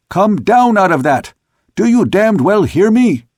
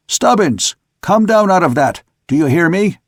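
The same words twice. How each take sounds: First: Higher, louder furious command; angry shout. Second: Calling out order. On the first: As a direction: bellow it up at the hiding sailor. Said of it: "but he was shouting again". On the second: Captain ordering sailor down. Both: A narrator's reading.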